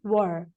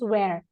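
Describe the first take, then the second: First: The vowel sounds like the one in her. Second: The vowel sounds like the one in air. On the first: The speaker calls it right. "It is were" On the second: The speaker calls it wrong. "we are not supposed to pronounce where"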